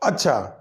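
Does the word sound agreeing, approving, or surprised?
agreeing. It is said in a calm, agreeing tone. The listener confirms what another said. "दूसरों की बात को तस्दीक करना कि अच्छा ठीक है"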